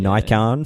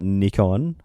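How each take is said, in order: First: It is pronounced the American way. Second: It is pronounced the non-American way.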